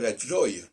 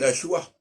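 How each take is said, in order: First: The vowel sounds like 'oy'. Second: The vowel sounds like 'wa'. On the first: The speaker calls it right. "On peut dire la joy. C'est pour ça que les Anglais disent joy" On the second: The speaker calls it wrong. "on ne peut pas dire la joie"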